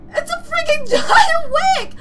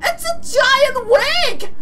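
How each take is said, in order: First: Louder, higher, laughing through it; laughing shout. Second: Said in the usual way. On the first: Real, not acted. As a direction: yell it while cracking up.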